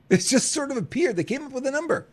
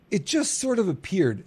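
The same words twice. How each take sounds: First: Repeated higher, leaning on sort; mocking echo. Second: Said in the usual way. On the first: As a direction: echo the line back with a sneer, pitch up.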